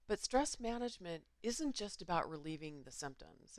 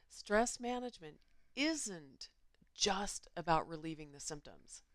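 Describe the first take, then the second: First: It is said at normal speed. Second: It is said slowly.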